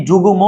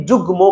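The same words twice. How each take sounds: First: "যুগ্ম" said as three syllables, ju-gu-mo; extra vowel. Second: "যুগ্ম" said as two syllables, jug-mo; vowel dropped. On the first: Teacher asking which one students say, extra vowel inserted. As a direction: put a vowel between g and m in "যুগ্ম". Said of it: "কি যুগ্ম বলছো নাকি যুগ্ম বলছো". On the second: Teacher asking which one students say, no vowel after g. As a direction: close on the g in "যুগ্ম", then mo. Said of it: "গয়ের ভিতরে আর কোনো স্বরবর্ণ নেই". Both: Shown as a demonstration.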